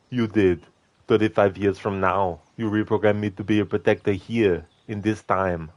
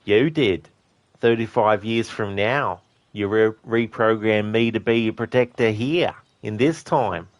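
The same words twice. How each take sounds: First: Said in the usual way. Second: A light take on Arnie's Terminator, measured and flat. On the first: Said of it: "And he's like". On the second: Retold or imitated. Quoting Arnie's Terminator line for chat, lightly voiced. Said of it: "John Connor asks him in Terminator two".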